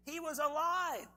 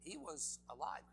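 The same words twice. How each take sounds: First: Higher, louder, slow, ringing out; exultant proclamation. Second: Said in the usual way. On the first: Acted. Preacher declaring to the congregation, exultant and slow. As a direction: proclaim it like good news.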